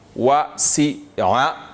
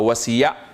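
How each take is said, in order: First: A glottal stop separates the middle vowels. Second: A y sound joins the middle vowels. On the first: The speaker calls it right. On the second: The speaker calls it wrong.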